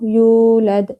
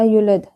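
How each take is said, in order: First: The first vowel is held long. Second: The first vowel is cut short. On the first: The speaker calls it right. "यहाँ पे वाव पढ़ना था" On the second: The speaker calls it wrong. "वाव को हमने कम कर दिया, वाव को खत्म कर दिया"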